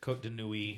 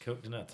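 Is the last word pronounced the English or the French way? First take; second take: French; English. First: The last word has a French vowel, like nwee. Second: The last word sounds like English nuts. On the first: The speaker calls it right. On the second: The speaker calls it wrong.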